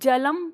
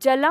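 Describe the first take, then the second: First: The word ends in a full m sound. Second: The word ends in a nasalized vowel. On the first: The speaker calls it right. "आप इसको जलम पढ़ते हैं" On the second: The speaker calls it wrong. "आप इसको जलम नहीं पढ़ते"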